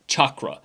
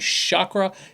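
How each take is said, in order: First: It begins with a 'ch' sound, like chocolate. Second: It begins with an 'sh' sound instead. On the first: This is the original Sanskrit word for the older chakra systems. The speaker calls it right. "in the original Sanskrit, the word chakra is like chocolate" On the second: This refers to the modern seven-colour rainbow chakra system. The speaker calls it wrong. "So when I say chakra, it is a seven colored rainbow system"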